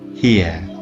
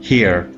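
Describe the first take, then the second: First: The final r sound is not pronounced. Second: The final r sound is pronounced. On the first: "the sound ra at the end of this word is not pronounced, so we say here" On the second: "instead of saying here in American English"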